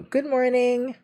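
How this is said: The voice is pitched high.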